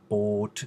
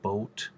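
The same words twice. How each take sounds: First: The vowel stays steady without gliding. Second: The vowel glides into a second sound. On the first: The speaker calls it right. "say words like boat instead of" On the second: The speaker calls it wrong. "instead of boat"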